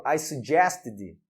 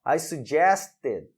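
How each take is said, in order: First: "suggested" with a clear final "id" syllable; teacher's careful "suggested", extra "id" syllable after the T; correct ED pronunciation. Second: "suggested" with just a D tacked on after the T; failed D-only ending. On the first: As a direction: model "suggested" slowly and lower, ending "suggest-id". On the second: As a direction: show "suggested" failing, ending "suggest-d" with no full "id" syllable. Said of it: "também não entra". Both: Shown as a demonstration.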